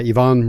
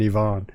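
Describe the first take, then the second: First: The name is pronounced the plain English way. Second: The name is pronounced the French way.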